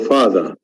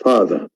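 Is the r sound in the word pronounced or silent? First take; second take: silent; silent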